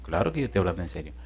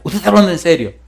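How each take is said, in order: First: Low, soft, quick reply; understated, fast, dropped in pitch; matter-of-fact reassurance. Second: Higher, eager disbelief; acted excited question, pitched up; retold excitement. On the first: Retold or imitated. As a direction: answer the excited question casually and quietly. Pastor calmly answers excited man. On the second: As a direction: imitate someone excitedly checking it's serious. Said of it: "me dice él emocionado".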